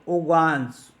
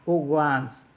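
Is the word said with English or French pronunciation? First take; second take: French; French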